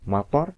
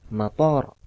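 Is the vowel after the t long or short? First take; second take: short; long. First: The vowel after the t is short. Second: The vowel after the t is long. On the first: It means rain. "Mator itu bermakna hujan" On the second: It means airport. "ketika toknya itu dua harokat"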